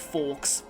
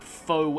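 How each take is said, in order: First: The word ends in a 'ks' sound. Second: The word ends in a plain vowel sound. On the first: The speaker calls it wrong. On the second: The speaker calls it right.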